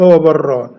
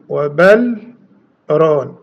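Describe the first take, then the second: First: The words merge, with no audible l sound. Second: The l is heard, then a brief break. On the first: "يدغم يعني يقول" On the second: "بالسكت"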